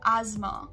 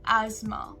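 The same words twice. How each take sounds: First: American pronunciation, with a z sound. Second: American pronunciation, with a z sound.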